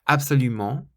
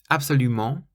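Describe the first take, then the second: Both takes have the same delivery.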